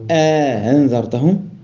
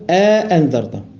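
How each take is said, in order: First: The second hamza is softened, with a lengthening. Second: The second hamza is pronounced fully and clearly.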